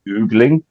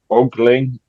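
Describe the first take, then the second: First: The first vowel sounds like 'oo'. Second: The first vowel sounds like 'oh'. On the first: The speaker calls it wrong. "not oogling?" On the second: The speaker calls it right. "Isn't it ogling"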